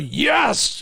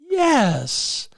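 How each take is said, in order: First: It is said flat and forceful, like a fist pump. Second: It is said light, high and excited. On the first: The speaker calls it wrong. "their yes is that" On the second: The speaker calls it right. "when it ought to be yes"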